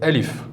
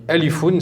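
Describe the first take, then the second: First: The word ends on a bare 'f' sound. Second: The word ends with an added 'oon' sound. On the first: The reading stops on this word. "si on s'arrête dans la prononciation à la fin, on fait comme s'il y avait un soukoun" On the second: The word is read in full as written. "c'est écrit alifoun"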